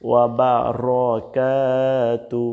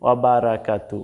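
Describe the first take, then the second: First: Slow "ওয়া বারাকাতু" with rounded ro and long kaa; one-alif stretch. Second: Quick "ওয়া বারাকাতু" with open ra, short ka; common Bangla reading. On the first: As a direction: draw out only the "kaa". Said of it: "একটা আলিফ টান আছে". (কা-তে টেনে শুদ্ধ উচ্চারণ) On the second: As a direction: say "ওয়া বারাকাতু" evenly, no stretch. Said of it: "এখানে কিন্তু আমরা ... বলে থাকি". (টান ছাড়া বাংলা উচ্চারণ) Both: Shown as a demonstration.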